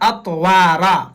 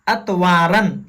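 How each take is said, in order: First: The word ends with a long a sound. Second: The word ends with an n sound. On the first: The speaker calls it right. "यहाँ अतवारा" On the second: The speaker calls it wrong. "लेकिन गलत है"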